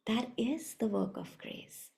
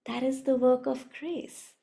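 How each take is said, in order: First: Quiet echo. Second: Said in the usual way. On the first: Shown as a demonstration.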